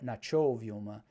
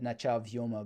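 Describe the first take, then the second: First: The first word ends in an o vowel. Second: The first word ends in an a vowel. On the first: "they'll make it o to go with the vyo" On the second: "I said nacha vyoma bumir"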